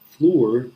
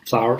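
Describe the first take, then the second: First: It rhymes with 'door', one syllable. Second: It sounds like 'flower', with an 'ow' vowel. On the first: The speaker calls it wrong. "students often pronounce it as like floor" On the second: The speaker calls it right. "it's pronounced just like flower"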